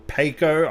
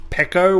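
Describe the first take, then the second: First: "Peko" said as PAY-koh; long-a pronunciation. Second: "Peko" said as PECK-oh; short-e pronunciation. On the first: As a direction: say "Peko" with a first syllable like pay. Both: Shown as a demonstration. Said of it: "don't know quite how you pronounce it".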